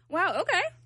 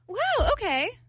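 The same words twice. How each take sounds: First: It sounds mocking and sarcastic. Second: It sounds warm and supportive.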